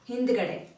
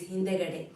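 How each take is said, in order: First: The middle vowel is dropped. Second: The middle vowel is fully pronounced.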